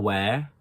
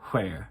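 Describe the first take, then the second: First: The word starts with a plain W sound. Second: The word starts with a breathy HW sound. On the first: "instead of saying where" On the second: "you put an H before the the uh, W, so it becomes where"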